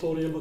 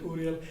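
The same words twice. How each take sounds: First: Uriel said with an OR start, or-ee-el; wrong Uriel. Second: Uriel said with an OO start, oo-ree-el; right Uriel. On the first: Father corrects the son's name: Uriel said as or-ee-el. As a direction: Uriel with the first vowel like "or". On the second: Father gives the son's name properly: Uriel said as oo-ree-el. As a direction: Uriel opening on a clear "oo". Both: Shown as a demonstration. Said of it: "his name is Uriel, not Uriel, but Uriel".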